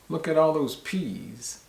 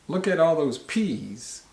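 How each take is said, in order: The two takes are said the same way.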